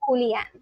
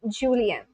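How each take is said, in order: First: The name starts with an H sound. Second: The name starts with a J sound. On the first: It is the Spanish way of saying the name. "you don't really pronounce the J as J, you say it as H" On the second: It is the way the name's owner says it. "J is not silent. Got it"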